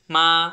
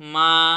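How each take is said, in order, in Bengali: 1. সুর মাঝারি থেকে উঁচুতে ওঠে। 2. সুর মাঝারি থেকে উঁচুতে ওঠে।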